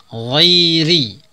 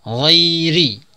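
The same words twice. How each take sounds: Both takes have the same delivery.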